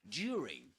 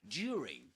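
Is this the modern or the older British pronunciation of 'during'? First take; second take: modern; modern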